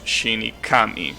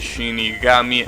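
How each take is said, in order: First: The last syllable starts with a k sound. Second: The last syllable starts with a g sound. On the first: The speaker calls it wrong. "and not Shinikami" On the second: The speaker calls it right. "So you say Shinigami"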